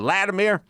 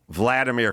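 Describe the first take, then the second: First: The name begins with an L sound. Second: The name begins with a V sound. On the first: The speaker calls it wrong. "He just go Vladimir, Vladimir" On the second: The speaker calls it right. "It starts with a V"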